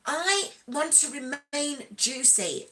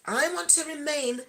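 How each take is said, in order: First: "juicy" drawn out slowly; a slow, playful "I want to remain juicy"; slow stress on juicy. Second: Said in the usual way. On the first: Real, not acted. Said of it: "Coach Mean Reason uses". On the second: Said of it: "repeated line".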